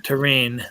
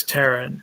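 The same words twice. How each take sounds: First: Said in the usual way. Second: "terrain" said as TERR-un; mispronounced terrain. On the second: Real, not acted. Poet reading a rhyme aloud, mispronounced "terrain" as Terran. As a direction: stress the first syllable of "terrain", like Terran. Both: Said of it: "when you mispronounced T-, Terran".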